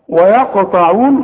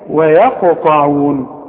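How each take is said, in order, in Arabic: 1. صوتا الواو والياء ثقيلان ومفخمان. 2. صوتا الواو والياء خفيفان ومرققان. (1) "ويقطعون غلط" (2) "دي بقى ويا ويقطعون خلاص"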